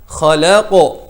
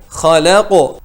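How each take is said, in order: The two takes are said the same way.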